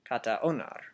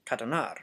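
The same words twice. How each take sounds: First: Said in the usual way. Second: Katonar, A dropped and run into the O; katonar, blending kata into onar; blended katonar. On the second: Shown as a demonstration. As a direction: katonar said as one word with no A. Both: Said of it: "katonar instead of kata onar".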